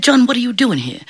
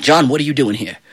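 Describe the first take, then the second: First: Surprised saint. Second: Stern devil. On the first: Saint Peter questions John at heaven. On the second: Devil questions John at his gates. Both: Acted.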